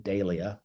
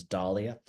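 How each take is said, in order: First: "dahlia" with first syllable as DAY; speaker's own pronunciation. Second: "dahlia" with first syllable as DAH; American pronunciation. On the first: Gardener giving his usual name for the flower, "dahlia" said DAY-lee-uh. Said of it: "what I've always called". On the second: Gardener quoting how Americans say it, "dahlia" said DAH-lee-uh. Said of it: "I've noticed Americans pronounce as". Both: Shown as a demonstration.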